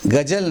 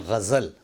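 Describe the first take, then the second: First: 'गज़ल' as gajal, hard g and j; wrong pronunciation. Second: 'गज़ल' with throaty gh and a z; correct Urdu pronunciation. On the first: Teacher rejects the common error, mispronounced. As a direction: use j for z in 'गज़ल'. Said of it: "गज़ल नहीं". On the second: Teacher gives the proper word, correctly pronounced. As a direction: say 'गज़ल' as ghazal, ghain first. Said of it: "उसको बोलें गज़ल". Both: Shown as a demonstration.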